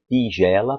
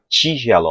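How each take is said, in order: First: The first sound is a crisp plain t. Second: The first sound is a hissy ch-like t. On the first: "a ponta da minha língua bate atrás dos dentes de cima" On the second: "o dorso da minha língua bate no meu céu da boca"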